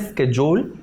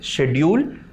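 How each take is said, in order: First: It is said the American way. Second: It is said the British way.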